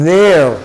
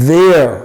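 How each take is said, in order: No difference in how they are said.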